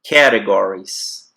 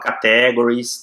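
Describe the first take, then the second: First: The stress is on the first syllable. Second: The stress is on the second syllable. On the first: The speaker calls it right. "É no cat. Lembra do gato?" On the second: The speaker calls it wrong. "Muita gente fala categories, tá errado"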